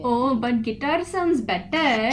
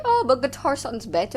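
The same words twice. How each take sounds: First: Slow, loud Indian accent imitation of dad. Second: High, loud imitation of dad. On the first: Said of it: "Manasa will have to relay it". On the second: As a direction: quote dad in a raised voice. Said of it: "I can't do an Indian accent".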